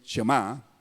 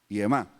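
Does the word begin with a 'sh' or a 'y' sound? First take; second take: sh; y. First: The word begins with a 'sh' sound. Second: The word begins with a 'y' sound. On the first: The speaker calls it wrong. "Algunos le dicen Shema, pero no existe la palabra Shema" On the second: The speaker calls it right. "se pronuncia aquí como I, con sonido I"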